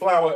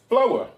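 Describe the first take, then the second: First: It rhymes with power. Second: It rhymes with mower.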